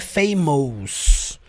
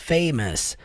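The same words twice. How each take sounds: First: The last syllable has a full 'ous' vowel. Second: The last syllable has a reduced 'us' vowel. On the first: The speaker calls it wrong. "não é famous. Não é porque tem O U S aqui" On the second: The speaker calls it right. "Som do us"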